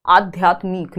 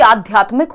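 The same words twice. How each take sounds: First: "आध्यात्मिक" with the ending stretched to मीक, lower in pitch; wrong long ending. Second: "आध्यात्मिक" closing on a short मिक; correct short ending. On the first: Teacher contrasting the wrong form, "आध्यात्मिक" ending in long मीक. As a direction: draw out the last vowel of "आध्यात्मिक" into long ई. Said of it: "होगा ना कि". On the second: Teacher giving students the right form, "आध्यात्मिक" with short final इ. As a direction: say "आध्यात्मिक" with short इ in the last syllable. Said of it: "छोटे ई की मात्रा आती है". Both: Shown as a demonstration.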